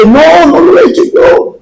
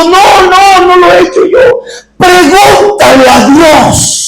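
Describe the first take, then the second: First: Negación aguda, imitando a una niña; protesta infantil. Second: Súplica aguda de niña, sin llanto real; súplica llorosa imitada. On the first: Niña acusada se defiende ante padre. (protesta de niña, imitada) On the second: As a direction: imita a una niña suplicando entre lágrimas. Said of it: "Y la niña estaba llorando". (ruego lloroso, actuado) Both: Retold or imitated.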